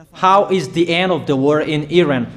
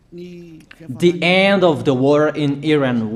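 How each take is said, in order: First: Said in the usual way. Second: Slow, each word of "the end of the war in Iran" set apart for note-taking; slow dictation. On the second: Shown as a demonstration. Preacher to listeners taking notes, slow dictation. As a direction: spell it out so they can write it down. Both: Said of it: "So you write down first".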